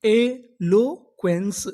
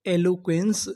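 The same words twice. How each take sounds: First: eloquence drawn out very slowly; slow full word. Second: Said in the usual way. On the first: Shown as a demonstration. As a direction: model eloquence slowly for the class. (धीरे-धीरे उच्चारण) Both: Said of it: "तो पूरी meaning क्या बनी?".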